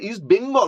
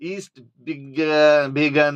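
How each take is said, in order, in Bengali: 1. দ্বিতীয় শব্দটি Bengal হিসেবে উচ্চারিত হয়। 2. দ্বিতীয় শব্দটি Began হিসেবে উচ্চারিত হয়। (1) "ওটা তো বেঙ্গল পরিষ্কার লেখা ছিল" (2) "এরম আমি বলছিলেন না আপনি?"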